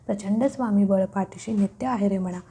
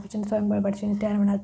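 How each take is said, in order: First: It is said slowly with every word clear. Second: It is rushed and slurred together quickly. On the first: It is recited with understanding and devotion. The speaker calls it right. "अशा टोनमध्येच तुम्हाला म्हणायचं आहे" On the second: It is recited carelessly, without devotion. The speaker calls it wrong. "उगाच fast बोलून त्याचा काही उपयोग नाही"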